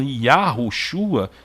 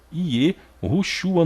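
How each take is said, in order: First: "Yahushua" with A in the first syllable; wrong pronunciation. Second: "Ierushua" slowly, with E in the first syllable; corrected pronunciation. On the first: Retold or imitated. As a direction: quote the faulty "Yahushua", starting Ya. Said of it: "chega a doer o ouvido de quem conhece". ("Yahushua" com A na primeira sílaba) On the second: Shown as a demonstration. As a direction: draw out "Ierushua" higher, starting Ie. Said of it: "no mínimo Ierushua". ("Ierushua" devagar, começando com Ie)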